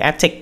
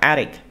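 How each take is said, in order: First: It is said in a British accent. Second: It is said in an American accent. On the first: "kalau orang Inggris" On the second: "tapi kalau di Amerika"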